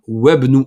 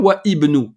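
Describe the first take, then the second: First: The 'i' is dropped and 'wa' links straight on. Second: The 'i' after 'wa' is sounded separately. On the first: The speaker calls it right. "on fait une liaison" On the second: The speaker calls it wrong. "On ne dit pas wa ibnu. Non, on ne le prononce pas"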